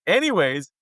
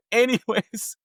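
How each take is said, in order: First: Said in the usual way. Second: Slow, higher, amused "Anyways"; drawn-out anyways. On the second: Real, not acted. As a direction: stretch "Anyways" to move on.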